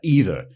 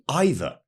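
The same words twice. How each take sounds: First: It is pronounced the American way. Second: It is pronounced the traditional British way. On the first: "You know how you guys would say like" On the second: "the traditional British way would be"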